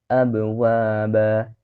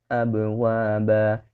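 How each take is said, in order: No difference in how they are said.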